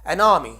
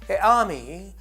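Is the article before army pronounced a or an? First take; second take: an; a. First: The article has an n linking into army. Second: The article is a plain vowel, no n. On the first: The speaker calls it right. "but you say an army" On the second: The speaker calls it wrong. "It's not a army"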